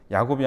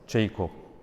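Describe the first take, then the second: First: It starts with a 'ya' sound: Ya-gop. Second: It starts with a 'je' sound: Jei-kop.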